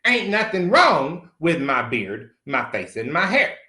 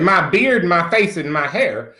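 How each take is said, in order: First: Slow, dragged-out defiant denial. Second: Each item a louder indignant question; outraged disbelief. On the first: Defending his beard to the esthetician, slow and defiant. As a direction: lay each word down slowly, refusing. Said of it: "Fuck you". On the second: Answering the esthetician, indignant disbelieving questions. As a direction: repeat her list back in shock. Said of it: "And I said". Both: Retold or imitated.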